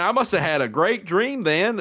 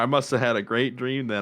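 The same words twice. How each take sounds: First: The voice sounds upbeat and enthusiastic. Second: The voice sounds flat and unenthusiastic. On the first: The dream seems to have been good. The speaker calls it right. "let me let me take that again from the top" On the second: The dream does not seem to have been good. The speaker calls it wrong. "You you don't sound like it was great"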